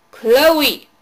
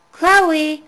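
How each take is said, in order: First: Loud yell of the name. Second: Loud call from below. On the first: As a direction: shout her name sharply. Babysitter yelling up the stairs. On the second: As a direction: call her name up the stairs. Babysitter calling down basement. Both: A narrator's reading.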